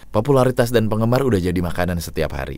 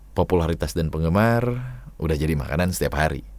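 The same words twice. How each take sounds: First: It is read straight through, quick and direct. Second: It is read relaxed, with some words drawn out. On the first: "Itu kan langsung ya" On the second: "lebih chill lagi gitu ya"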